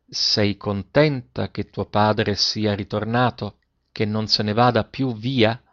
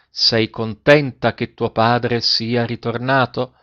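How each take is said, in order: First: Slow, lower-pitched careful question; facing her, repeating. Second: Slow, careful question; speaking into her ear. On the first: Father repeats question for daughter to lip-read, slow and low. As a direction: form each word slowly for lip-reading. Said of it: "guardandola bene in faccia, ripeté". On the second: Father asks daughter into her ear, slow tender question. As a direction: ask it slowly, close to her ear. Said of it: "parlandole all'orecchio". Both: A narrator's reading.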